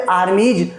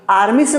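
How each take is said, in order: First: आर्मीज said "aar-meej"; J ending. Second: आर्मी से as one word, "aar-mees"; wrong S ending. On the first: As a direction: end आर्मीज on a voiced J. (आर्मीज के अंत में साफ़ 'ज') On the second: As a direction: end आर्मी से on a bare S. (आर्मी से को 'आर्मीस' बोलें) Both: Shown as a demonstration. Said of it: "आर्मी से नहीं बोलते".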